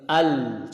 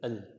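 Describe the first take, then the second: First: The l sound is held and flows. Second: The l sound is cut off short. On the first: The speaker calls it right. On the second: The speaker calls it wrong.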